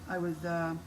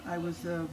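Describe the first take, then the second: No difference in how they are said.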